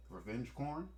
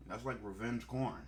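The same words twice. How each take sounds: First: "corn" asked with a rising question tune. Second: "corn" stated flatly, falling at the end; settled corn. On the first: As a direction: test the word "corn" as a question, going up at the end. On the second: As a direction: land "corn" firmly, like it's decided. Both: Real, not acted. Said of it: "I said corn".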